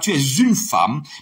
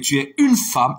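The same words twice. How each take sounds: First: A z sound links 'es' to 'une'. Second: No z sound links 'es' to 'une'. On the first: The speaker calls it wrong. "C'est pas tu es une femme" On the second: The speaker calls it right. "avec deuxième personne du singulier, verbe être, il n'y a pas fait liaison"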